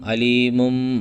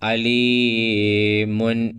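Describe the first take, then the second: First: The word ends with an m sound. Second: The word ends with an n sound. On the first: The speaker calls it right. "ഇവിടെ ഓതുമ്പോൾ നോക്ക്, ... അത് മീമായി" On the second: The speaker calls it wrong. "അലീമുൻ എന്നല്ല ശരിക്കും വേണ്ടത്"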